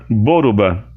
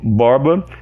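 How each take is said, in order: First: An added u vowel follows the R. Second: The R runs straight into the B. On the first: This is the name adapted to Japanese sounds. "eu coloco o R somando um U" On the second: This is the original Portuguese form of the name. "Eu chamo Borba"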